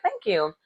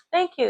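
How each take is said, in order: First: Said in the usual way. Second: Mock-chirpy nonchalant thanks; a high, light brush-off thank you; airy high thank you. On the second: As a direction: jump way up high, breezy and unbothered. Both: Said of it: "Never seen someone so nonchalant".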